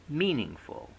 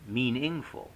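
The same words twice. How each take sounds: First: The stress is on the first syllable. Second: The stress is on a later syllable. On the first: The speaker calls it right. "We say meaningful" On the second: The speaker calls it wrong. "not meaningful"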